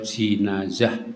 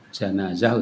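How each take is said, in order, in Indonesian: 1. Huruf vokal pertama adalah 'i' tertutup. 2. Huruf vokal pertama adalah 'a' terbuka. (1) "bisa di kasroh" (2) "bisa di fathah"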